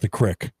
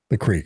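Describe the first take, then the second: First: It is said with a short 'crick' vowel. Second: It is said with a long 'creek' vowel.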